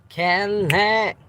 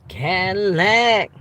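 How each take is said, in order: No difference in how they are said.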